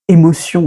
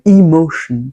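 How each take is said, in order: First: The word is pronounced with French sounds. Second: The word is pronounced with English sounds.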